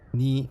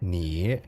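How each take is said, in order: First: The pitch stays level throughout the word. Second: The pitch dips down and then rises. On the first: "tone one is like flat" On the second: "It's like a down and then up"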